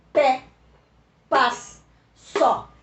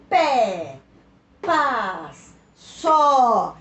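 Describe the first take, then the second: First: Pé, paz, só as short, loud single beats; crisp, loud pé, paz, só with pauses between; strong monosyllables. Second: Pé, paz, só each stretched long and loud, pitch sliding down; long falling pé, paz, só with pauses between; strong open syllable. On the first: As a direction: punch pé, paz and só one by one, each on its own. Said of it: "uma sílaba só e forte". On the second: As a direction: draw out the vowel of pé, paz and só. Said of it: "uma sílaba só e forte, aguda". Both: Shown as a demonstration.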